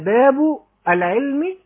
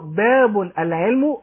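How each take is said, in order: First: The second word ends with an i vowel. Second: The first word has -un; second ends with u. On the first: This is the chapter of knowledge. "العلم هنا يكون مضاف إليه فنكسره" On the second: A chapter: knowledge comes first. "يبقى هيكون بالتنوين"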